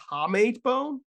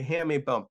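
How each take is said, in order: First: "hamate" said as HAH-mate; "hamate" starting like "hah", then "mate"; unsure pronunciation. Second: "hamate" said as HAM-ate; "hamate" starting like "ham", then "ate"; corrected pronunciation. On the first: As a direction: say "hamate" with an open "ah" in the first syllable. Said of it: "how do you pronounce a hamate bone". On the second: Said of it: "Did I say it right?". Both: Real, not acted.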